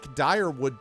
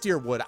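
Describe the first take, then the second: First: The first syllable sounds like 'dire'. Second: The first syllable sounds like 'deer'. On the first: This is the speaker's own preferred pronunciation. "I like my pronunciation better" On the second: This is how the game pronounces it. "It's deer, it is Deerwood"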